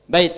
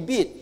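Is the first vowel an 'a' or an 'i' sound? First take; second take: a; i. First: The first vowel is an open 'a' sound. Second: The first vowel is a close 'i' sound. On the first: The speaker calls it right. "kita baca dengan harakat fathah, ba" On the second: The speaker calls it wrong. "harusnya ba jadi I, gak apa-apa"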